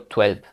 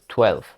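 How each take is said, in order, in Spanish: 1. La palabra termina con un sonido V sonoro. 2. La palabra termina con un sonido F suave. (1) "yo no digo doce" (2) "Acabo como si fuera una F"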